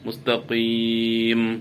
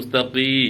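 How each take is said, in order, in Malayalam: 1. ഈ വാക്ക് ചുണ്ട് അടച്ചാണ് അവസാനിക്കുന്നത്. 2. ഈ വാക്ക് ചുണ്ട് അടയ്ക്കാതെയാണ് അവസാനിക്കുന്നത്. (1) "ചുണ്ട് പൂട്ടണം" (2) "മുസ്തഖീ എന്ന് പറഞ്ഞാൽ അവിടെ മീമ് വരുന്നില്ല"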